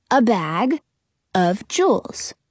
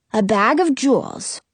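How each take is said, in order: First: "A bag" then a pause, slow "of jewels"; split into parts. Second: Said in the usual way. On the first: Acted. Jonah explaining a two-parter, pausing between parts. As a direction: break it apart to show two parts. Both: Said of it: "Jonah explains".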